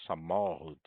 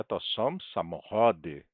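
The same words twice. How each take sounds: First: "samochód" with the middle syllable mo stressed. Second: "samochody" with stress moved to the next-to-last syllable cho. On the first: Teacher pointing out the singular's stress, on mo in "samochód". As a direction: lean on mo in "samochód", letting the end drop. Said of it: "Aqui a sílaba tônica é mo". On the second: Teacher showing the stress has moved, onto cho in "samochody". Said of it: "mudou também aqui". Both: Shown as a demonstration.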